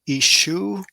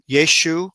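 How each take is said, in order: First: The word begins with a vowel sound. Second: The word begins with a y sound. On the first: "the yod would be somewhat silent" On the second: "they do pronounce the yud"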